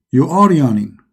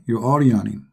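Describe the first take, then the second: First: Loud, pointed call to the drawing. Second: Said in the usual way. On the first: Shown as a demonstration. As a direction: announce it firmly to the picture.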